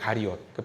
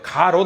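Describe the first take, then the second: First: The name is said in three syllables. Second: The name is said in two syllables. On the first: The speaker calls it right. "원래는 가리옷이에요" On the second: The speaker calls it wrong. "가롯 아닙니다"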